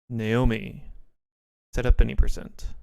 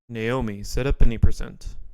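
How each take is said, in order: First: It is said at a slower pace. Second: It is said at a faster pace.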